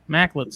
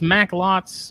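First: The second vowel is shortened and reduced. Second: The second vowel is a full O sound. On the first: "I just shortened the O" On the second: "it's Macklots"

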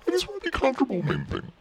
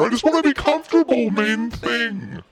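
First: The sentence is spoken quietly. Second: The sentence is spoken loudly. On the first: "I can't really hear you" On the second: "I'll speak louder"

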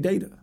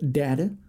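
First: Data is pronounced the Californian way. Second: Data is pronounced the Southern US way. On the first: "and if you're from California, you say" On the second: "if you're from the South"

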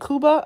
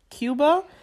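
First: Cuba is said with a Slovak pronunciation. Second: Cuba is said with an English pronunciation. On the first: "that's how they say it in Slovak" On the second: "Instead of Cuba"

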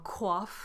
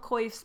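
First: The word is said with a French pronunciation. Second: The word is said with an English pronunciation. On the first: The speaker calls it wrong. "if you're going to be all French" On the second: The speaker calls it right. "that's what the English are calling them"

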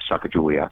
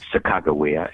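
First: The name has its widespread pronunciation. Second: The name has its North Dakota pronunciation.

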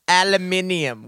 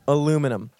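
First: It has an extra syllable before the ending. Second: It has no extra syllable before the ending. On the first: The speaker calls it wrong. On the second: The speaker calls it right.

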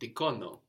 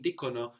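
First: The stress is on the second syllable. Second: The stress is on the first syllable. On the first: The speaker calls it wrong. "not dicono, no" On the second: The speaker calls it right. "We're saying dicono"

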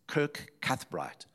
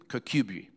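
First: The name is said fully, following its spelling. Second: The name is said in a short, reduced form. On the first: This is how an outsider would say it. "if you say it, you know, the normal way" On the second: This is how the local people say it. "the way they pronounce it is Kirkcudbright"

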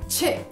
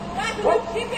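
First: It is said with an English pronunciation. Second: It is said with a Brazilian Portuguese pronunciation. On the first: "em inglês a pronúncia é chip" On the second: "essa palavra em português a gente costuma até mesmo pronunciar como chip"

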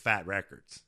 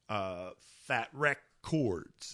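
First: The words are said quickly and run together. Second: The words are said slowly and separately. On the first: "You say it fast enough" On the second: "is how it's actually written"

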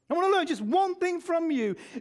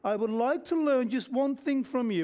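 First: It is said in an angry tone. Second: It is said in a calm, plain tone.

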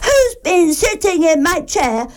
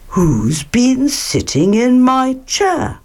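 First: It is said in Baby Bear's crying voice. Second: It is said in Father Bear's voice.

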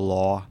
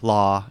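First: The vowel is a rounded 'aw' sound. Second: The vowel is an open 'ah' sound. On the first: "instead of law" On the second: "if I say law"

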